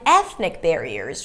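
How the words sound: The pitch rises on the first word, then drops. It is the last item in a list. "I go higher in pitch for ethnic and then drop barriers"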